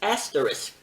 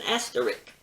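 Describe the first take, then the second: First: The word ends with a 'risk' sound. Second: The word ends with a 'rick' sound. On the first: The speaker calls it right. "It is asterisk" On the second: The speaker calls it wrong. "some folks call it an asterisk"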